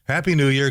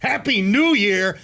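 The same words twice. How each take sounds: First: The greeting is said in a flat tone. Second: The greeting is said in an upbeat tone. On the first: The speaker calls it wrong. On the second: The speaker calls it right.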